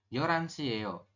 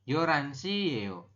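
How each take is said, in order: Both takes have the same delivery.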